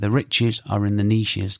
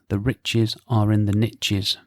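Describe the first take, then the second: First: Niches is said like neeshes, not rhyming. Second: Niches is said to rhyme with riches. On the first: "we English say niche" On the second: "The saying in the online marketing world is"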